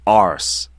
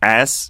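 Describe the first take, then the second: First: The word is said with an r sound. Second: The word is said without an r sound. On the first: "arse 그 r 발음까지 해서" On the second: "영국에서 ass 하지 않고"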